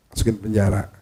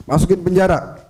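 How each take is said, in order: First: Said in the usual way. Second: Higher-pitched mock order to jail someone; acted command. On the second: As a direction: give the order in a raised pitch.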